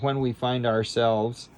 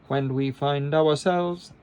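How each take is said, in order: First: 'Our' is said as a single syllable. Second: 'Our' is split into two syllables, 'a-wa'. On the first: The speaker calls it wrong. "instead of saying" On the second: The speaker calls it right. "we're going to say when we find ourselves, awa, awa"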